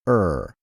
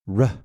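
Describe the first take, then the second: First: A vowel comes before the R sound. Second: The R sound is said alone, without a vowel. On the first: The speaker calls it wrong. "Some teachers pronounce this something like er" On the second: The speaker calls it right. "easier and clearer for both teachers and children to pronounce it r"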